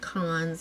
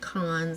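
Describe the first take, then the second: First: The vowel sounds like the one in 'con'. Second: The vowel sounds like the one in 'con'.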